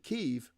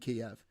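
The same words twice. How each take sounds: First: It is said the way Ukrainians say it. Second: It is said like the English dish name. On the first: The speaker calls it right. "You pronounce it Kiev because that's how the Ukrainians say it" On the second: The speaker calls it wrong. "you don't pronounce the capital of Ukraine, Kiev, like chicken Kiev"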